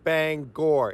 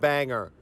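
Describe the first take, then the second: First: The name ends with a full 'or' sound. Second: The name ends with a weak 'er' sound. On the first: The speaker calls it right. "There is an or there at the end of that Bangor" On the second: The speaker calls it wrong. "It is not Banger"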